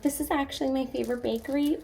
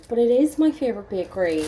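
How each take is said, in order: First: A hint of that eager customer, high and soft; mock try-hard fan. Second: Said in the usual way. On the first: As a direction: lightly send up the gushing fan. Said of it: "like, that person being like".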